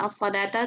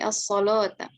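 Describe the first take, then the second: First: The L sound is thin and light. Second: The L sound is thick and heavy. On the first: This is how other reciters read it. The speaker calls it wrong. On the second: This is how the Warsh reading pronounces it. The speaker calls it right.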